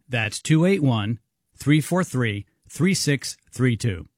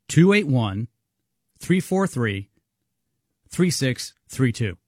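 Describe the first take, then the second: First: The number is read at normal speed. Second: The number is read a little more slowly.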